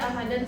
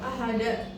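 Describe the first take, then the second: First: The word ends with an n sound. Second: The word ends with a glottal stop. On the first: "tetap dibaca ahadan saat berhenti, itu salah" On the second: "seperti ada hamzah di akhir"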